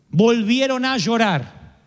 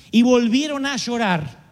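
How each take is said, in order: First: "Volvieron a llorar" repeated slowly, leaning on "Volvieron"; slow it down and weigh "Volvieron"; slow emphatic repeat. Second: Said in the usual way. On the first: Shown as a demonstration. Preacher stressing the people wept again, slow emphasis.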